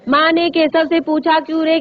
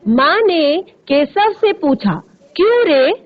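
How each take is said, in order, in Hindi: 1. यह बिना रुके सीधे चलता रहता है। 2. यह अंत में साफ़ रुकता है। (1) "आप सारी चीजें पढ़ते जा रहे हैं। लेकिन ऐसे नहीं पढ़ना है।" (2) "ऐसे, ... देखिए फिर प्रश्न चिन्ह है ना वहां पे"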